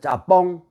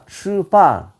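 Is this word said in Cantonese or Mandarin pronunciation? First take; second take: Cantonese; Mandarin. First: It is said in Cantonese pronunciation. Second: It is said in Mandarin pronunciation. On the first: "광동 사람들, 그 홍콩 사람들은 뭐라고 부르냐면 짜뽕이라 그래요" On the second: "이 표준으로 하면 츠판입니다"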